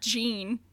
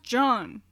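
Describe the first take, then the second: First: The name is said with an English pronunciation. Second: The name is said with a French pronunciation. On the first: The speaker calls it wrong. "not Jean" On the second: The speaker calls it right. "It's pronounced John"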